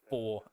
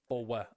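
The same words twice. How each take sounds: First: The word is said as one syllable. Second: The word is split into two syllables.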